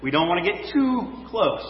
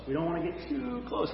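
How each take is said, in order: First: Said in the usual way. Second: Much softer, echoing the phrase; a quiet echo, letting it sink in; softer repeat. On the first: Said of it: "first statement". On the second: Real, not acted. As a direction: drop to a near hush on the repeat. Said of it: "repeats softly".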